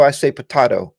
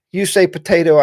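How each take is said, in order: First: "potato" with a broad AH; potato said pə-TAH-to. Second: "potato" with the long A sound; potato said pə-TAY-to. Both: Shown as a demonstration.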